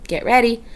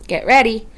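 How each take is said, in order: Both takes have the same delivery.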